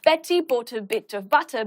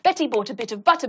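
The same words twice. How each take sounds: First: It is said at a moderate pace. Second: It is said at the fastest pace. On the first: "each time we're going to get faster" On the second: "each time we're going to get faster"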